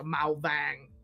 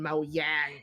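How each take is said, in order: First: The second word begins with a v sound. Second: The second word begins with a y sound. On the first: "That's that's north" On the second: "Mao Yang is south"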